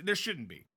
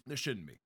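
First: "There shouldn't be" stressed firmly on "There"; firm insistence. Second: "There shouldn't be" repeated softer and lower; quieter repeat. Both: Shown as a demonstration.

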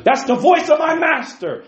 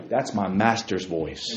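First: High, loud proclaiming cry; preaching shout. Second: Hushed reverent line. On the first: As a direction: shout it out to the congregation. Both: Acted. Preacher builds to climax.

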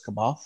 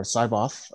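First: C'baoth with a short kuh at the start; variant pronunciation. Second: Cyboth with a long sigh-like first syllable; alternative pronunciation. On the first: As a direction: say C'baoth as kuh-BOTH, tentatively offered. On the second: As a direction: say Cyboth as SY-both, as the other option. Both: Shown as a demonstration. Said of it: "however it's pronounced".

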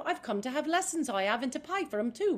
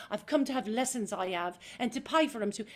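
First: Higher, louder, open Cockney line; spring up bright and sure; open Eliza. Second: A more worried, pressed Cockney line; stressed Eliza. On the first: Actress demoing the right, unstressed Eliza reading, bright Cockney. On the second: Actress demoing the wrong, stressed Eliza reading, worried Cockney. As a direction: crunch in with worry. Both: Shown as a demonstration. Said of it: "as opposed to".

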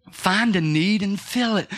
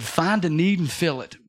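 First: "Find a need and fill it" said slowly, pressing on "fill"; slow, weighty repeat. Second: Said in the usual way. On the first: Shown as a demonstration. Preacher repeating the pastor's motto slowly for the congregation. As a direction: drive the motto home word by word.

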